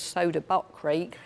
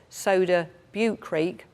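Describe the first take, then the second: First: The middle word sounds like 'butt'. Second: The middle word does not sound like 'butt'. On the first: The speaker calls it wrong. "I thought it was Soda Butt Creek" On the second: The speaker calls it right. "This is Soda Butte Creek"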